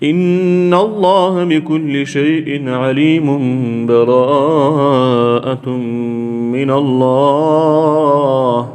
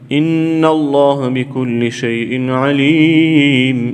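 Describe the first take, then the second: First: The verses are joined without any pause. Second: There is a full stop between the verses.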